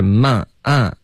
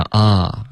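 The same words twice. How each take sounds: First: "慢啊" with a tight vowel as in Mandarin "man"; mistaken vowel. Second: "啊" as a relaxed, full open vowel. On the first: Teacher copying what the student says now, mistaken vowel. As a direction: imitate the learner's "慢啊" for "mon". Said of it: "你现在发的是慢啊". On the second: Teacher giving the vowel wanted, full "ah". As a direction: open up fully on "啊". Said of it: "我们要啊". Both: Shown as a demonstration.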